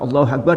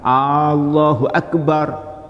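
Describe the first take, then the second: First: The first vowel is kept short. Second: The first vowel is drawn out long. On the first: It states that God is great. The speaker calls it right. "yang benar alifnya pendek" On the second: It asks whether God is great. The speaker calls it wrong. "hamzahnya diperpanjang"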